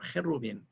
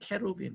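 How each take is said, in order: First: It is said the Hebrew way, starting with h. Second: It is said the English way, starting with k. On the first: "히브리어 헤루빔" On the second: "혹은 케루빔"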